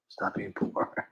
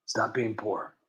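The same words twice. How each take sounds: First: Soft, slow whispered echo; whispered repeat. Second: Said in the usual way. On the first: Retold or imitated. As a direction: breathe the quote again slowly. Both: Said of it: "like Nancy always says".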